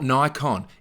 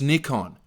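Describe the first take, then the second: First: The first syllable sounds like 'nye'. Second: The first syllable sounds like 'nee'. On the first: This is how Americans say it. The speaker calls it wrong. "It's not Nikon. ... There's no Ni" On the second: This is how the rest of the world says it. The speaker calls it right. "It's Nikon. ... Say it properly"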